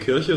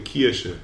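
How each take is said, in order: First: The I vowel sounds like standard German. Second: The I vowel has the regional Märkisch colouring. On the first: "keine Kirche" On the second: "sondern eine Kirche"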